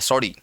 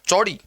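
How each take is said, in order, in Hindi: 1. शब्द की शुरुआत 's' की आवाज़ से होती है। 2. शब्द की शुरुआत 'ch' की आवाज़ से होती है। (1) "वो च को स ही बोलेंगे" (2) "उनको पता है कि च बोलना"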